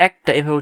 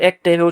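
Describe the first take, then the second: First: একটা with an open "æ", as "ækta"; correct open vowel. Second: একটা with a close "e", as "ekta"; wrong vowel. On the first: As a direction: model the spoken একটা, opening on æ as in "cat". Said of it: "আমরা একটা এভাবে উচ্চারণ করি". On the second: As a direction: show the unused reading of একটা, starting with a plain e. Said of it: "একটা এভাবে উচ্চারণ করি না". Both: Shown as a demonstration.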